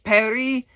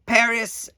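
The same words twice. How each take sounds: First: Paris said the French way as "Pari", silent s; Paris with no final s, French style. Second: Said in the usual way. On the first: Shown as a demonstration. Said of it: "if you're French". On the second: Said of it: "for U S people".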